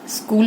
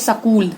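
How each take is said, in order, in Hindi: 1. यह सादे 'sk' संयुक्त वर्ण से शुरू होता है। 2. 'k' से पहले एक स्वर जोड़ा जाता है। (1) "स्कूल होगा ऐसे" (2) "हरियाणा के लोग स्कूल को क्या कहते हैं"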